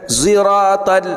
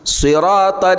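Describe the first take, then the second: First: The word begins with a z sound. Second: The word begins with an s sound. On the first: The speaker calls it wrong. "ada sebagian mengatakan ziratal" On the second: The speaker calls it right. "padahal dia jelas si bukan zi"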